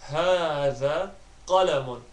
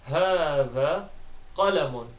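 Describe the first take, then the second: Both takes have the same delivery.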